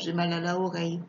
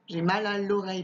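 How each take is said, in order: First: The article is a separate syllable before the noun. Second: The article is elided and joined to the noun. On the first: The speaker calls it wrong. "pas j'ai mal à la oreille" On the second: The speaker calls it right.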